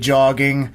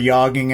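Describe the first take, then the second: First: The word begins with a hard J sound. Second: The word begins with a soft Y sound.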